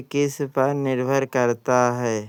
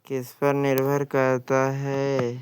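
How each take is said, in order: Both takes have the same delivery.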